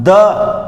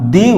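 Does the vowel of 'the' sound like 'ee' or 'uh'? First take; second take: uh; ee. First: The vowel is a short, neutral 'uh' sound. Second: The vowel is a long, high 'ee' sound. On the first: A consonant sound follows the word. "व्यंजन वर्ण आता है तो तब उसे हम द उच्चारण" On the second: A vowel sound follows the word. "वावल आता है तो उसे हम दी उच्चारण"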